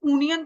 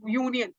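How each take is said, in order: First: यूनियन without its "y", opening on "oo"; wrong pronunciation. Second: Said in the usual way. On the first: Shown as a demonstration. Teacher warns class off a mistake, यूनियन said as "oo-nian". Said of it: "तो नहीं बोल रहे". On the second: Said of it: "य को sound कर रहा है".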